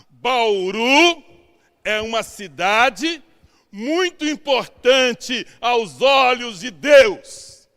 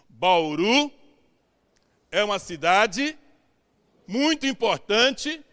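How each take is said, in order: First: It is said loudly. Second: It is said quietly.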